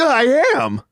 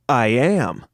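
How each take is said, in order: First: It is said very excitedly, with high energy. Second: It is said calmly, without much energy.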